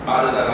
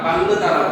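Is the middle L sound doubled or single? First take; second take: single; doubled. First: The middle L sound is single and light. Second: The middle L sound is doubled and held. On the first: "빠르다가 아니라" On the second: "발음하는 사람들이 많거든"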